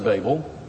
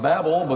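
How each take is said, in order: First: The first vowel sounds like the one in baby. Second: The first vowel sounds like the one in Babylon. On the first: "I say Babel. I say baby" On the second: "it ought to be Babel because of Babylon"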